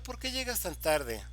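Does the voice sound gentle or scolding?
gentle. It is said in a soft, gentle tone. The speaker is asking out of concern. "si yo modulo la voz"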